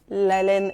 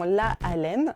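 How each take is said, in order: First: The article's vowel is dropped before the noun. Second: The article's vowel is kept before the noun. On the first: The speaker calls it right. "Il y a des élisions" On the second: The speaker calls it wrong. "et non"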